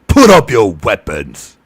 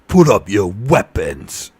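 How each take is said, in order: First: It is shouted loudly in Ugluk's voice. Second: It is said calmly, without shouting.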